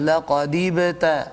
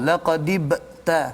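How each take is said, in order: First: A slight bounce on b, flowing on without a break. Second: The voice cuts off sharply after the b. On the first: The speaker calls it right. "Maksudnya ada sedikit lantunan" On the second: The speaker calls it wrong. "dia punya putus suara"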